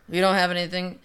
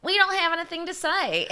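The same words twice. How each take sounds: First: Said in the usual way. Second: High put-on voice, laugh creeping in; mock witnesses. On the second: People questioned by investigators, in a high mock-innocent voice. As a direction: squeak it out as a mocking imitation.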